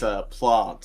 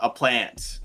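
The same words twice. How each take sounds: First: It is said with a British vowel. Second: It is said with an Australian vowel.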